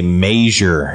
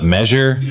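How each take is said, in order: First: The first vowel is a long A sound. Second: The first vowel is a short E sound.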